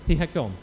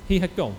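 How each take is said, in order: Both takes have the same delivery.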